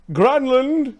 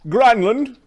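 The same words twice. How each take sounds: First: Louder impatient call. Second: Loud, high call across the yard. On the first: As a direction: call again, higher and louder. Master calls again. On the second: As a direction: call the servant over. Master calls servant. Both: Acted.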